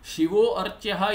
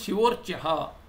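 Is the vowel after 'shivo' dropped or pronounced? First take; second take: pronounced; dropped. First: The vowel after 'shivo' is pronounced separately. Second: The words run together with the vowel dropped. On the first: The speaker calls it wrong. "Shivo archaha is not right" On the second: The speaker calls it right. "The form is shivorchaha. You cannot pause there. You cannot pronounce the a"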